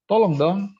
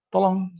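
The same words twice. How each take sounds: First: High, louder insistent please; emphatic tolong dong, pitched up; firm intonation. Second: High, rising plea for help; a high, louder please; pleading intonation. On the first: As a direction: press the request firmly. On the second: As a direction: ask for help with a lifted pitch. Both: Shown as a demonstration. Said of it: "Nah, jadi itu intonasi".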